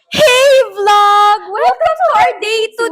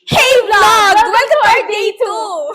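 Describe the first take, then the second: First: The greeting sounds mocking and insincere. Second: The greeting sounds harsh and angry. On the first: "Sarcastic, sarcastic" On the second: "galit, galit, angry, angry"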